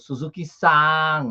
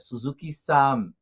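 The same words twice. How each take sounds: First: The final n is open, lips apart. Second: The final n is closed, lips together. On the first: The speaker calls it wrong. "Eu não falo, por exemplo, Suzuki-san aberta" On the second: The speaker calls it right. "É fechado, o encontro é bilabial"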